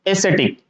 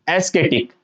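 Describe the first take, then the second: First: एस्थेटिक said "e-SE-tik", with an s and no k; correct soft C pronunciation. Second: एस्केटिक with a hard k, "es-KE-tik"; wrong K pronunciation. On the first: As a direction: say एस्थेटिक with a soft s sound in the middle. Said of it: "तो इसका correct pronunciation होगा". (एस्थेटिक को "ए-से-टिक" बोलें) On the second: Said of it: "But aesthetic is wrong". (एस्केटिक में "क" की आवाज़) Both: Shown as a demonstration.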